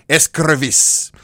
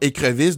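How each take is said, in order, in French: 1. Un son s suit la première voyelle. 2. Aucun son s ne suit la première voyelle. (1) "devient escrevisse" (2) "écrevisse devient escrevisse"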